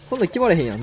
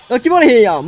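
First: Said in the usual way. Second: Frustrated. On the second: Real, not acted. Frustrated game moment.

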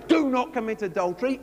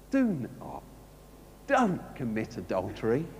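First: Said in the usual way. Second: Gentle plea. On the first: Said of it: "it doesn't say". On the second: Shown as a demonstration. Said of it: "It says".

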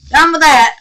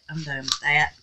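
First: Loud, high, falling declaration; real exasperated burst, pitched up; emphatic. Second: Said in the usual way. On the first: Real, not acted. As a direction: call it out louder to be finished with it. Repeats it emphatically, giving up.

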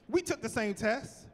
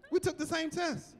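First: Said in the usual way. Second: Higher teasing repeat. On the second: Real, not acted. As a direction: tease them with a lifted repeat. Teasing jealous branches.

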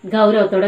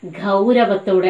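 First: Said in the usual way. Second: ഗൗരവത്തോടെ said slowly, each syllable drawn out; stressed key word. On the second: Shown as a demonstration. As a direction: lean on ഗൗരവത്തോടെ for the class. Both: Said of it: "ശ്രദ്ധിക്കണേ".

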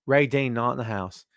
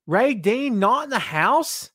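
First: Said in the usual way. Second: "Ray Dean not in the house?" asked higher, slow, rising at the end; questioning rise. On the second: Shown as a demonstration. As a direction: pitch the whole line up as a slow, puzzled question, rising on "house".

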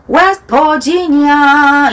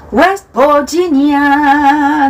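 First: Mock wrong West Virginia; wrong pronunciation. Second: West Virginia with a clear V biting the lip; careful English V in Virginia; correct V sound. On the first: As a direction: say Virginia loosely as bodginia. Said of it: "이러시면 안 돼요". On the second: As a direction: bite the V in Virginia. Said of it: "V, V 발음". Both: Shown as a demonstration.

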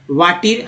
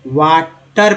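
First: वाटीर with a long ee in the last syllable; वाटीर, the e read as ee; wrong pronunciation demo. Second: वाटर split slowly, short uh in टर; वाटर with uh, not ee, at the end; correct pronunciation demo. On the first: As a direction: misread water as वाटीर. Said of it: "ऐसा तो नहीं पढ़ रहे". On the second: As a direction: say वाटर in two careful parts. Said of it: "यानी अ बोल रहे हैं". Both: Shown as a demonstration.

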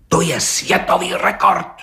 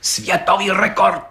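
First: Higher, bursting out with excitement; agitated exclamation; blurted excitedly. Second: Higher, slow and solemn; ceremonious repetition; solemnly. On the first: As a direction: blurt it out, worked up. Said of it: "vyhrkl rozčileně". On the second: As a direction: pronounce it like a grand announcement. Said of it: "opakoval četník Hejda slavnostně". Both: A narrator's reading.

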